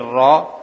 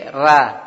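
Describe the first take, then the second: First: The r sound is heavy and full. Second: The r sound is light and thin. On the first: "Yang tebal itu seperti tadi roh" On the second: "ada yang tipis seperti ra"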